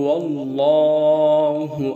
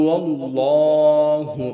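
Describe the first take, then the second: The two takes are said the same way.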